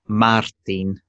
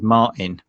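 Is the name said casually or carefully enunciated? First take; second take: enunciated; casually. First: The name is said slowly with every sound enunciated. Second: The name is said casually in a plain English accent. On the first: Listeners abroad understand the name. The speaker calls it right. "really enunciate the words" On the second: Listeners abroad could not understand the name. The speaker calls it wrong. "my sort of normal way of talking"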